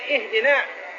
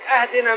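First: The first vowel is a closed 'i' sound. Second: The first vowel is an open 'a' sound. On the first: Guide us. The speaker calls it right. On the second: Give us a gift. The speaker calls it wrong.

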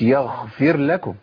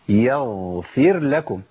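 First: The consonant is a voiceless kh sound. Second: The consonant is a voiced gh sound. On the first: The speaker calls it wrong. "مش يغفر لكم" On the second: The speaker calls it right. "يبقى إيه؟ يغفر لكم"

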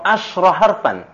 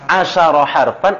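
First: No vowel follows the sh sound. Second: A short a vowel follows the sh sound. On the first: "shinnya sakinah" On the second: "shinnya maftuha"

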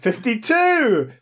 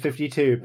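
First: It is said in a jaunty, showy voice. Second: It is said in a plain, ordinary voice.

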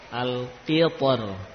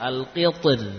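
First: The final r is pronounced heavy and thick. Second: The final r is pronounced light and thin. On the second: "atau tipis"

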